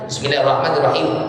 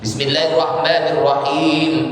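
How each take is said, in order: First: The long vowels are cut short. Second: The long vowels are held for their length. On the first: The speaker calls it wrong. "Jangan dimatikan aja. ... Ini nggak boleh, karena dia menghilangkan mad" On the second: The speaker calls it right. "minimal ada begitu"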